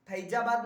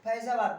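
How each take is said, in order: First: फैजाबाद with plain फ and ज, the Hindi way; wrong फैजाबाद. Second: फैजाबाद with f and z, the Urdu way. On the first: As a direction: say फैजाबाद without the Urdu sounds. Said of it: "फैजाबाद नहीं बोलते हैं". (गलत उच्चारण फैजाबाद) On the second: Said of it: "यहाँ जब ये उर्दू वाला रहे तो वहाँ एफ होता है". (उर्दू उच्चारण फैजाबाद) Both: Shown as a demonstration.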